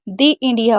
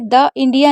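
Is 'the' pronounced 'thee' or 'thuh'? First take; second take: thee; thuh. First: The word 'the' sounds like 'thee'. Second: The word 'the' sounds like 'thuh'. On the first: The speaker calls it right. "दी India होगा" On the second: The speaker calls it wrong. "द India नहीं"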